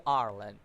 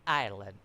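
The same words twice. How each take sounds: First: Ireland said as "AR-lund"; alternative pronunciation. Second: Ireland said as "EYE-er-lund"; lower, careful Ireland, starting like "eye"; alternative pronunciation. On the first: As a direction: say Ireland with an "ar" opening, no "eye" sound. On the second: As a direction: say Ireland with an opening "eye" sound. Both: Shown as a demonstration. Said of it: "however you want to pronounce".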